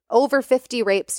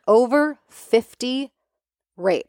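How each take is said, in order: First: Said in the usual way. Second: "Over fifty" drawn out slowly, then "rapes" dropped; slow emphatic "Over fifty rapes". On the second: Shown as a demonstration. Host stressing the crime count to listeners, slow and weighty. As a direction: let "Over fifty rapes" sink in word by word. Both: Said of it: "Like, let that sink in".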